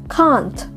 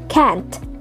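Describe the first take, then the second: First: It is said with a British accent. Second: It is said with an American accent. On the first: "sekarang kita ke British English" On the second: "can sama can't-nya orang Amerika"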